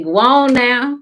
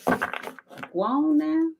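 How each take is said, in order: First: Loud, high shout; spirit shooing you off. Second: Very slow, high and drawn out; drawn-out high shoo. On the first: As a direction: shout it high to send someone away. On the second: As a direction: stretch it out high and slow, shooing gently. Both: Acted.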